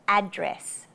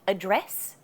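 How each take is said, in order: First: The stress is on the first syllable. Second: The stress is on the second syllable. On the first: The speaker calls it right. "you should just emphasize the first syllable" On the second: The speaker calls it wrong. "Not address"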